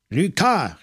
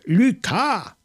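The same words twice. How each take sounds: First: Loud call. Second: Higher, louder cry for help; desperate shout. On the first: Maigret, wrestling on the floor, calls his colleague loudly. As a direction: shout the name out for help. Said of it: "rief Maigret, so laut er konnte". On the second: Maigret, struggling in the dark, screams for his colleague. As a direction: yell the name with everything you have. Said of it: "so laut er konnte". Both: A narrator's reading.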